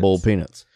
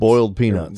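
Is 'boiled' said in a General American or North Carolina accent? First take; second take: North Carolina; General American. First: Boiled is flattened to sound like bowl. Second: Boiled is said with a clear oi and final d.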